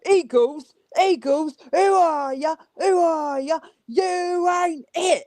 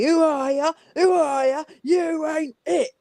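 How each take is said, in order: First: Put-on British thug accent. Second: Put-on high British terrace chant in a thug accent, slowing into the last line. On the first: Caller Kat taunting Eagles fans in a British thug accent. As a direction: taunt the Eagles like a British football thug, slow on the last line. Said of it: "do your British thug accent". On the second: Caller Kat chanting at the Eagles on Sunday in a British thug accent. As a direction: jeer it like a British football yob. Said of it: "thug English accent".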